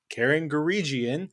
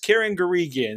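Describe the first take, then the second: First: The G in the surname is soft. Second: The G in the surname is hard. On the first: The speaker calls it wrong. "I must be pronouncing it wrong. So I called her Karen Garigian" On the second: The speaker calls it right. "It's a hard G"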